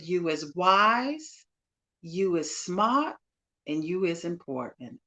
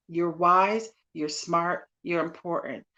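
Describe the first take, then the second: First: Slow Southern drawl with rising phrases; Southern broken voice. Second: Said in the usual way. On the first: Retold or imitated. Guest quoting a film's maid to a young girl, Southern broken voice. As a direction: draw out each affirmation in broken Southern English. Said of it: "in her Southern broken voice". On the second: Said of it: "that's what I'm saying to you".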